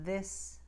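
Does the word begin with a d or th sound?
th. It begins with a voiced th sound. "The voiced T H sound, as in this"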